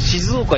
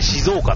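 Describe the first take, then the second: First: It is said the standard, non-local way. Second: It is said the way local people say it. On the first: The speaker calls it wrong. "静岡じゃなくて" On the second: The speaker calls it right. "向こうの現地人曰く、静岡なんだよね"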